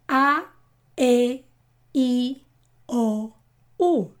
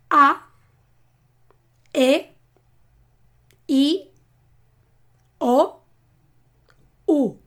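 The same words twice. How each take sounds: First: The vowels are said faster again. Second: The vowels are said slowly and separately.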